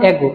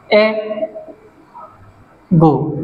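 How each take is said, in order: First: Said in the usual way. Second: এগো pulled apart, এ, long pause, গো; very slow two-beat এগো for learners; syllable split. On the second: Shown as a demonstration. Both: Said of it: "দুটো syllable".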